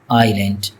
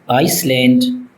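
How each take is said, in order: First: No S sound is pronounced before the L. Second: An S sound is pronounced before the L. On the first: The speaker calls it right. "that S is not pronounced in this word" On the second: The speaker calls it wrong. "Many people mispronounced it as uh"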